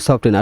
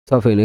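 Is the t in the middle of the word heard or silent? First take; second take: heard; silent. First: The t sound in the middle is pronounced. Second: The t sound in the middle is silent. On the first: The speaker calls it wrong. "এখানে আমরা বলি সফটেন" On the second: The speaker calls it right. "আসলে এই উচ্চারণটা হবে সফেন"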